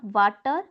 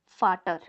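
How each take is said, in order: First: The word begins with a V sound. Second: The word begins with an F sound. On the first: The speaker calls it wrong. "this is not water" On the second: The speaker calls it right. "V has a sound of F"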